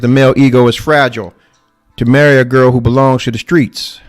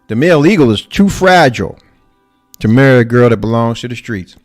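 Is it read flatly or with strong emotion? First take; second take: flatly; strong emotion. First: It is read flatly, without emotion. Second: It is read with strong emotion.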